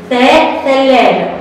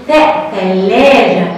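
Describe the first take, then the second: First: Said in the usual way. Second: Sung, slow sing-song sound drill. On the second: Shown as a demonstration. Teacher to children, chanting ثاء ثلاجة slowly. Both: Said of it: "هتاخد صورة ايه تاني".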